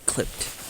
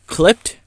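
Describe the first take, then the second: First: Clipped. said flat and very soft; Clipped. with a final fall; settled. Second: Rising unsure Clipped?; Clipped? asked as a question. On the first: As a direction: confirm Clipped. quietly to yourself. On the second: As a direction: try out Clipped? with a rise. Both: Shown as a demonstration. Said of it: "Wait, what am I saying?".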